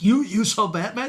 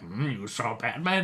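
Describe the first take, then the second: First: It is said with eager, smiling excitement. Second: It is said with doubtful skepticism.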